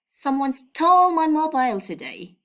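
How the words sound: The word stole carries the main stress. The phone was really stolen, not misplaced. "by stressing this word, I mean stole"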